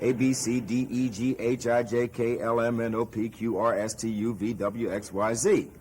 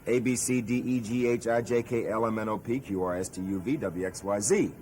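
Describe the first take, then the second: First: The letters are said slowly. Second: The letters are said fast.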